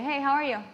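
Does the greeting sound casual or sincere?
casual. It sounds quick and casual.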